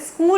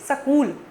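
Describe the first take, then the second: First: The word begins with a tight s-k cluster. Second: A vowel is inserted between the s and k. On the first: The speaker calls it right. "कहते हैं स्कूल नहीं सकूल" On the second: The speaker calls it wrong. "ये सकूल कहां से आया"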